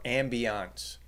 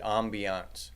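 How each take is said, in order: First: "ambiance" with an English AM at the start; first pronunciation of ambiance. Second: "ambiance" with a French-like AHM at the start; alternative pronunciation of ambiance. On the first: Host naming the music for the retirement mall, "ambiance" opened with AM. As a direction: say "ambiance" slowly as AM-bee-ahnce. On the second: Host second-guessing the word, "ambiance" opened with AHM. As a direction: say "ambiance" as AHM-bee-ahnce. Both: Shown as a demonstration. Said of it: "Or is it ambiance?".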